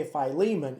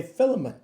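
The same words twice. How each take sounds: First: "Philemon" as fy-LEE-mun, middle syllable stressed; fy-LEE-mun pronunciation. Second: "Philemon" as FIL-uh-mun, first syllable stressed; FIL-uh-mun pronunciation. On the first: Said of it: "you say Philemon". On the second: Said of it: "If you're behind the camera". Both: Shown as a demonstration.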